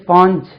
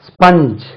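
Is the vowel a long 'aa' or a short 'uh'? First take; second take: long aa; short uh. First: The vowel is a long 'aa' sound. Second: The vowel is a short 'uh' sound. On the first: The speaker calls it wrong. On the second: The speaker calls it right.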